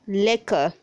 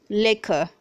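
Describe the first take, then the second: The two takes are said the same way.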